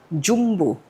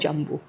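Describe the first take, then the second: First: It is said with an Indonesian pronunciation. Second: It is said with an English-style pronunciation. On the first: The speaker calls it right. "Ini adalah film Indonesia, Jumbo. Inilah cara kita melafalkan Jumbo" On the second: The speaker calls it wrong.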